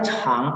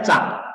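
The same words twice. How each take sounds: First: "Chang" opened with an audible puff; aspirated CH. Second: "Chang" with no puff of air after the ch; unaspirated CH. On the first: Teacher showing the C reading meaning long, aspirated "Chang". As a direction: let air burst out after the ch in "Chang". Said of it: "tulisannya C ya, bukan Z". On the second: Teacher contrasting the Z reading, unaspirated "Chang". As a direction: say "Chang" with a tight unaspirated ch, like Zhang. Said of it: "dia pakai Z". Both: Shown as a demonstration.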